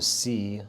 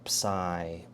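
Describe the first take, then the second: First: The word sounds like the letter C. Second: The word does not sound like letter C. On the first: "I don't want to say c because then it sounds like the Latin character after B" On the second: "but it's psi"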